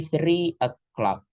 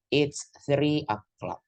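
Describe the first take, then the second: First: Three o'clock said slowly, each word drawn out; slow teaching demo. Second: "it's three o'clock" drawn out slowly and evenly; slow model sentence. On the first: Teacher modeling the time for students, slow and clear. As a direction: spell out "three o'clock" for the class at half speed. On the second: Teacher modeling the full sentence for students, slow. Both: Shown as a demonstration. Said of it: "kita ambil contoh".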